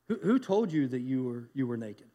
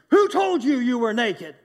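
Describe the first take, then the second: First: The question sounds gentle and caring. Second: The question sounds angry and accusing. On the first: No one else has the right to define the listener. The speaker calls it right. "I want to read it in a different context" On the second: The listener is being blamed for doing wrong. The speaker calls it wrong. "we grew up with angry parents, like we see God pointing his finger and saying"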